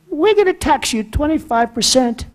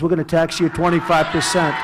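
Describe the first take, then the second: First: It is said in a high, squeaky voice. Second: It is said in a normal, aggressive voice.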